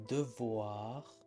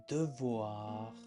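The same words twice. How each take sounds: Both takes have the same delivery.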